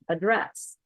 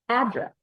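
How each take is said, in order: First: The stress is on the second syllable. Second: The stress is on the first syllable. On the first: It is used as a verb. "If it's a verb, it's going to be second syllable stress" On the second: It is used as a noun. "if it's a noun, it's going to be first syllable stress"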